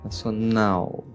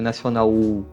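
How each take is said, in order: First: The final L becomes a weak U sound. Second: The final L becomes a full, strong U sound. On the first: The speaker calls it right. "L no final tem um som de U fraco" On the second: The speaker calls it wrong. "Não é nacional U, não"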